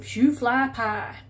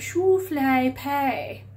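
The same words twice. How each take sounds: First: It is said in a plain, ordinary accent. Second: It is said in a posh British accent. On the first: "It's the way I've heard somebody pronounce it" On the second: "I'm going to say it in the very British way"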